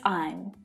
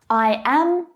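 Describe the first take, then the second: First: It is said as one contracted syllable. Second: It is said as two full separate words. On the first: "I am becomes I'm" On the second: "pushed together when spoken naturally"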